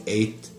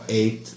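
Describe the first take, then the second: No difference in how they are said.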